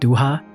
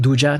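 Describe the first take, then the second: First: The middle consonant is an H sound. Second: The middle consonant is a J sound. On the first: The speaker calls it wrong. "not Duha" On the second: The speaker calls it right. "I'm choosing to pronounce it Duja"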